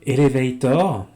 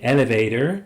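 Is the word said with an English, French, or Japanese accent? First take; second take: French; English. First: It is said with a French pronunciation. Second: It is said with an English pronunciation. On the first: "pire, hein, avec un accent français" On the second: "comme leurs mots anglais"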